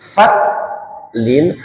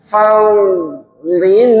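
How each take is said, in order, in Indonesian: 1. Huruf tengah itu bunyinya seperti t polos. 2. Huruf tengah itu ḍ berat yang dipanjangkan. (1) "tidak boleh dulu fatlin" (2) "harus ekornya memanjang"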